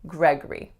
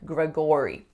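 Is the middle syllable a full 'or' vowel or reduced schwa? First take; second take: schwa; full vowel. First: The middle syllable is reduced to a schwa. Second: The middle syllable has a full 'or' vowel. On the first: The speaker calls it right. "the second syllable has to reduce to schwa" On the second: The speaker calls it wrong. "I often hear something like Gregory, but we don't say that o or or sound"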